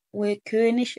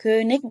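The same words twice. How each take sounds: First: وكونش with König ending in a soft sh. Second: كونيج with a stopped g at the end; hard g ending. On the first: Teacher contrasts two correct endings, soft sh. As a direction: let the end of وكونش hiss as sh, not g. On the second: Teacher contrasts two correct endings, hard g. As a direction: end كونيج on g rather than sh. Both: Shown as a demonstration. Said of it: "الاتنين صح".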